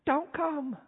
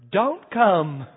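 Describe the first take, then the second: First: High, much softer hushed plea; whispering. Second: Put-on small sheepish kid's answer, no louder; sheepish child. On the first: Retold or imitated. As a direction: whisper it so God won't hear. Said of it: "I hear them whispering". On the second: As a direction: confess it like a guilty little boy. Child confesses after silence.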